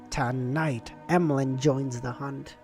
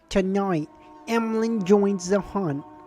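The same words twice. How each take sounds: First: It is read in a plain narrating voice. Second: It is read in a put-on character voice. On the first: The speaker calls it wrong. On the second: The speaker calls it right.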